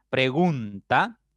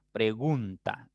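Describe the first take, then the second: First: "pregunta" slow, pre-GUN-ta with a rising end; "pregunta" drawn out syllable by syllable, GUN strongest; stress on GUN. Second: Said in the usual way. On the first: Shown as a demonstration. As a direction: stretch "pregunta" and lean on "gun". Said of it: "La sílaba tónica es gun". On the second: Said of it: "Son tres sílabas".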